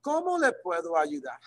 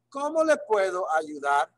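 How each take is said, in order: First: ¿Cómo le puedo ayudar? rising then falling; rising and falling tune. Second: ¿Cómo le puedo ayudar? with a lilting rise and fall; sing-song question. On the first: Teacher shows students the lilting question tune. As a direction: let ¿Cómo le puedo ayudar? rise and fall. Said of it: "They kinda rise and fall". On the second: Teacher models Spanish question, sing-song rise and fall. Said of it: "a little sing-songy thing to them". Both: Shown as a demonstration.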